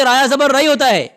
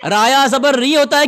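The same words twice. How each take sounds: First: رئی said as "rai", a gliding vowel. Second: ری said as "ree", one long vowel. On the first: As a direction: open رئی out into an "ai" sound. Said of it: "رایا زبر ری ہوتا ہے کہ". (رئی کو "اَئی" کی آواز کے ساتھ) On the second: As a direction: stress ری as a pure "ee" sound. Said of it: "کہ رایا زبر رئی ہوتا ہے". (ری کو لمبی "ای" کے ساتھ) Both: Shown as a demonstration.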